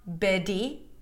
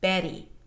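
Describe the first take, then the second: First: The middle consonant is a strong, full D. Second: The middle consonant is a very light tap. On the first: The speaker calls it wrong. "the flap T is not a strong D. It is not Betty" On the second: The speaker calls it right. "It is a very, very light D"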